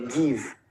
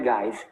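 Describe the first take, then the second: First: The vowel is short, like in it. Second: The vowel is long, like in five. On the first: The speaker calls it right. "é give" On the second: The speaker calls it wrong. "Não é give"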